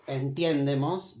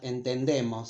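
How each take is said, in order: First: Entiendemos with the ie diphthong, stress on the de; wrong form entiendemos. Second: Entendemos with a plain e, no diphthong, stress on the de; correct form entendemos. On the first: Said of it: "we don't say". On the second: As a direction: say the right form entendemos, plain e, a bit quicker. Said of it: "but entendemos". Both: Shown as a demonstration.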